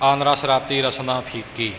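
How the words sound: The phrase stops with a pause after ਫੀਕੀ. The speaker calls it wrong. "ਉਹ ਫੀਕੀ 'ਤੇ ਵਿਸ਼ਰਾਮ ਲਾ ਲੈਂਦੇ ਨੇ, ... ਇਉਂ ਵਿਸ਼ਰਾਮ ਲਗਾ ਲੈਂਦੇ ਨੇ, ਜੋ ਠੀਕ ਨਹੀਂ"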